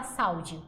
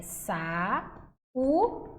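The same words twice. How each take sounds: First: "saúde" run together as SAU-de; pronúncia errada, ditongo. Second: "sa-u-de" very slowly, one syllable at a time; pronúncia correta, hiato. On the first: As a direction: say "saúde" in two syllables with an AU glide. ("saúde" com ditongo, sau-de) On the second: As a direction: pause after each syllable of "sa-u-de". ("sa-u-de" sílaba por sílaba, com pausas) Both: Shown as a demonstration. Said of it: "a gente não fala saúde".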